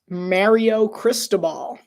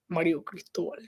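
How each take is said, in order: First: The name is said with American-style pronunciation. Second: The name is said with Spanish-style pronunciation.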